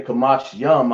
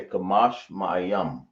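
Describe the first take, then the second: First: "Kamash Yam" said as the short two-word form without Ma'a; "Kamash Yam" spoken as the form a listener might wrongly use. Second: "Kamash Ma'ayam" with the full Ma'a syllable before yam; "Kamash Ma'ayam" said as the right plural form; correct form. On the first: Teacher showing class the wrong "Kamash Yam" form. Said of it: "you can't say". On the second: Teacher giving class the right "Kamash Ma'ayam". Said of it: "I would say". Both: Shown as a demonstration.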